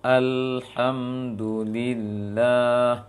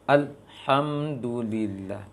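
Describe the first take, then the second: First: "alhamdulillah" slow, the lam flowing; correct recitation. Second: "Alhamdulillah" with the lam held and stopped; wrong recitation. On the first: Teacher showing the right way, slow flowing lam. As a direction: let the l of "alhamdulillah" run on. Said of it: "Seharusnya al". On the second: Teacher demonstrating the mistake, held lam. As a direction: choke the l in "Alhamdulillah". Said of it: "Maka keliru". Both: Shown as a demonstration.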